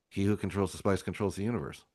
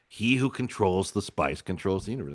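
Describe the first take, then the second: First: It is said flatly, without intensity. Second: It is said with strong intensity.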